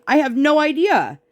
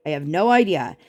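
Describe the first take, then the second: First: High, exasperated "I have no idea"; exasperated exclaim. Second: Said in the usual way. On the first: Real, not acted. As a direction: throw up your hands on "idea".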